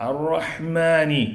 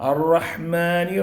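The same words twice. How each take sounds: Both takes have the same delivery.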